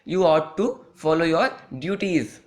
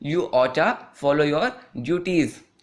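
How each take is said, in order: First: Ought to is said as two full words. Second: Ought to is blended into one word, oughta. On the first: "आप इसको बोलते होंगे" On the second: "आप यहाँ पर बोल सकते हैं"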